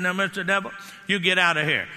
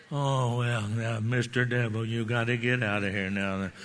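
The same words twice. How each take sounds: First: Authoritative, stern order; firm command. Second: Much lower and softer, meek and unsure; timid weak plea. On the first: Retold or imitated. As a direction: throw the devil out with authority. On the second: Pretend. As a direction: beg the devil half-heartedly with no authority. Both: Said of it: "they have to hear authority in your voice".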